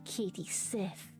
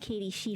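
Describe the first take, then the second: First: The surname ends in a 'th' sound. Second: The surname ends in an open 'ee' sound. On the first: The name is turned into something evil. The speaker calls it wrong. "I'm going to be Katie Sith. Like an evil Jedi" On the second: This is the usual way the name is said. The speaker calls it right. "I'm not going to be Katie Shee for this"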